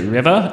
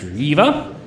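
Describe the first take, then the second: First: The name is said like the word river. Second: The name is said as Reva. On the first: The speaker calls it wrong. "I pronounced it River" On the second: The speaker calls it right. "it's pronounced Reva"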